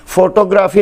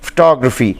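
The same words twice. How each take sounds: First: फोटोग्राफी said foto-graa-fee with long o; फोटोग्राफी local mispronunciation; फोटोग्राफी the wrong way; wrong pronunciation. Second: फोटोग्राफी as fuh-TOG-ruh-fee; फोटोग्राफी stressed on TOG, reduced vowels; फोटोग्राफी the English way; correct English pronunciation. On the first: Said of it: "फोटोग्राफी ना". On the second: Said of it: "बल्कि लफ्ज़ है". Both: Shown as a demonstration.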